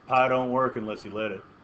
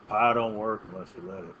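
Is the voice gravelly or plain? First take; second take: plain; gravelly. First: It is said in a plain, ordinary voice. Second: It is said gravelly with a slight southern drawl.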